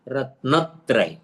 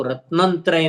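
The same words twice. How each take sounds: First: रत्नत्रय slightly slow, stress on न; correct pronunciation. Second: रत्नंत्रय with an added nasal n; wrong pronunciation. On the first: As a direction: model the clean रत्नत्रय. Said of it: "न पर जोर देकर बोलना है". (सही उच्चारण रत्नत्रय, न पर जोर) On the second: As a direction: contrast with the mistaken रत्नंत्रय. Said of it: "रत्नंत्रय नहीं". (गलत उच्चारण रत्नंत्रय) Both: Shown as a demonstration.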